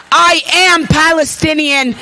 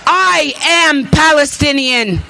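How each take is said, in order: Both takes have the same delivery.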